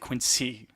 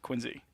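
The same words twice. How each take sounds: First: The middle consonant is an s sound. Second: The middle consonant is a z sound. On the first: It sounds like an outsider. The speaker calls it wrong. "If you want to sound like a local, don't say Quincy" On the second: It sounds like a local. The speaker calls it right. "W X Y Z Quincy. You want to sound like a townie"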